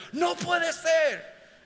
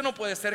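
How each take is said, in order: First: High, drawn-out cry of disbelief; astonished disbelief. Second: Said in the usual way. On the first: Acted. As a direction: cry out high, slowly, as if refusing to believe it. (grito de incredulidad asombrada) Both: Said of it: "es que tú no lo crees".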